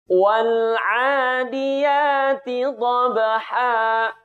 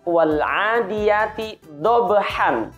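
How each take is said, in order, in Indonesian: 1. Kata terakhir berakhir dengan vokal a yang dipanjangkan. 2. Kata terakhir berakhir dengan bunyi n. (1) "Kita baca dengan cara seperti ini" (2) "Huruf haknya berakhiran an"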